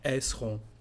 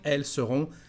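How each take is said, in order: First: The pronoun is shortened, dropping sounds. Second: The pronoun is pronounced in full. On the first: This is how people talk casually. "the way we speak" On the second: This is the careful, standard form. "the correct one"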